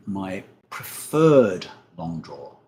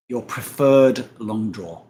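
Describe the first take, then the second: First: Said in the usual way. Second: "preferred" drawn out and leaned on, slow and louder; mock the word "preferred" by stretching it; teasing stress. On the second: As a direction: tease with a slow, pointed "preferred". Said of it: "That's when you're not going full butter".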